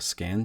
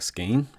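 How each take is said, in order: First: The vowel sounds like short 'a' in 'can'. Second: The vowel sounds like 'ay' in 'say'. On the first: The speaker calls it wrong. "they pronounced it uh, Scan just now" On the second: The speaker calls it right. "I've been saying Skane"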